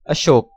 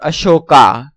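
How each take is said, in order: First: It is said the Hindi way. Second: It is said the foreign way. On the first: "Hindi pronunciation" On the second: "Foreigner's pronunciation"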